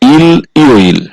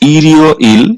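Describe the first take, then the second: First: The two parts are said separately without linking. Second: The L links into the next syllable as r. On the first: The speaker calls it wrong. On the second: The speaker calls it right.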